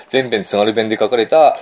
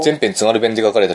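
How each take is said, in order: First: 「全編津軽弁で書かれた」をゆっくり一語ずつ、語尾を上げて; 言い直して強調、最後の「た」を上げる; slow, deliberate restatement. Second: Said in the usual way. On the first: Shown as a demonstration. (ゆっくり念を押すように) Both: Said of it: "題名忘れちゃったんだけども".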